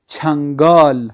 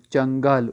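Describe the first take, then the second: First: چھنگال slow and loud, aspirated ch, long final aa; Persian pronunciation. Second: چنگال with a plain unaspirated ch; Urdu pronunciation. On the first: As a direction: stretch چھنگال with a strong puff on ch. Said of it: "فارسی میں چیم کو پڑھتے چھا". (چھنگال فارسی تلفظ میں، آہستہ، زوردار چھ) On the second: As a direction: say چنگال the Urdu way, no puff after ch. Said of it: "Urdu میں چنگال". (چنگال اردو تلفظ میں، بغیر ہوا کی چ) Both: Shown as a demonstration.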